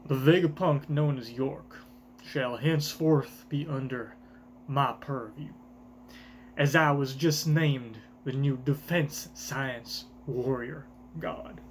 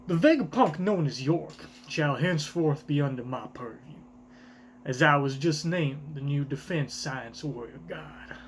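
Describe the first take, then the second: First: Garling's voice. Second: A breathy, hushed proclamation; whispered Garling line. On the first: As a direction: announce it like a ruler. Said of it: "this accent ... for my boy Garland". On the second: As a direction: let the decree slip out in a whisper. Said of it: "is this Garland saying this?". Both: Acted.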